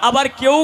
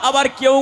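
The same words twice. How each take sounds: Both takes have the same delivery.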